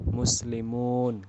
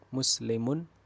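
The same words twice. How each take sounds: First: The final vowel is stretched out long. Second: The final vowel is kept short. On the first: Many Muslims. The speaker calls it right. "Dasarnya panjang, harus dibaca panjang" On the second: One Muslim. The speaker calls it wrong. "Kalau dibacanya pendek"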